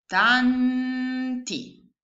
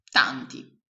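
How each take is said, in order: First: Higher, slow, stretched out "tanti" split as TAN-TI; syllable by syllable. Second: Said in the usual way. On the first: Shown as a demonstration. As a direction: sound out "tanti" one syllable at a time. ("tanti" scandito sillaba per sillaba) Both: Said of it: "La prima parolina è".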